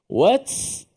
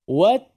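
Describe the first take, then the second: First: The t is released with a hissing s sound. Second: The t is released cleanly without any hiss. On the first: The speaker calls it wrong. "tak boleh" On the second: The speaker calls it right. "Ta hanya wat, wat, wat, itu sahaja bunyi ta"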